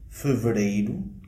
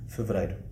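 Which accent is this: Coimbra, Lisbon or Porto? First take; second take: Porto; Coimbra. First: The diphthong ei is said strongly, Porto style. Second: The diphthong ei is said in between, Coimbra style.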